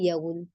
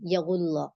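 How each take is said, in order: First: The L is short and single, with no final vowel. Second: The L is held doubled, with a final vowel. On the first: The reader stops on the word. The speaker calls it wrong. "गलत तरीके को हम देखें तो ये होता है" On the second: The reader keeps going without stopping. The speaker calls it right. "अगर आप यहाँ नहीं रुकेंगी तो सिंपल पढ़ेंगी"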